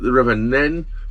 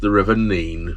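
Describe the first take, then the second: First: The river name has the Northampton vowel. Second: The river name has the Peterborough vowel. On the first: The speaker is upstream at Northampton. "I pronounced it the River Nen because we're at Northampton" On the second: This is the name used further downstream. "at, say, Peterborough, it would then be called the River Nene"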